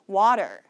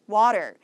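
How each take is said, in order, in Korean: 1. 미국식 억양이고, t가 탄설음(flap)으로 납니다. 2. 미국식 억양이고, t가 탄설음(flap)으로 납니다.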